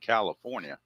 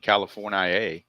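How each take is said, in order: First: It is said in a plain, ordinary accent. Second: It is said in a rural hillbilly accent.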